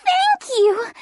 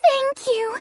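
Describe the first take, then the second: First: Rising thanks with full mouth. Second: Talking while gobbling nuts; words round a mouthful of nuts; mouth full. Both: Acted. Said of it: "gobble the nuts as she said".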